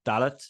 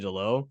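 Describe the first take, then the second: First: The name ends with a clear t sound. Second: The name ends without a t sound. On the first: This is how the name is said in its own language. "I think they pronounce the T" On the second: This is how the speaker would naturally say it. "So I would say Delo"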